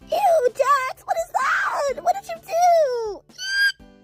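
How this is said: It is said in a put-on Gangle voice.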